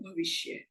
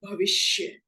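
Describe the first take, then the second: First: भविष्य with the ष said carelessly; faulty ष in भविष्य; wrong pronunciation. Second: भविष्य with a full ष sound; slow, careful भविष्य; correct pronunciation. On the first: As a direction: misplace the sibilant in भविष्य. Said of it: "इसका उच्चारण गलत कब होता है". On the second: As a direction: say भविष्य slowly with its proper sh. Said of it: "शब्द है". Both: Shown as a demonstration.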